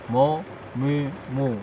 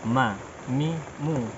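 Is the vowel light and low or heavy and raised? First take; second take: heavy; light. First: The vowels are heavy with the voice going up. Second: The vowels are light with the voice going low. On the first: The speaker calls it wrong. "tidak ke atas" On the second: The speaker calls it right. "suara cenderung ke bawah"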